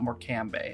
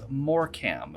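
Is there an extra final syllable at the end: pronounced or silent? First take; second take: pronounced; silent. First: An extra syllable is pronounced at the end. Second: The ending is silent, with two syllables only. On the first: The speaker calls it wrong. "not Morcambe" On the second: The speaker calls it right. "It's Morcam"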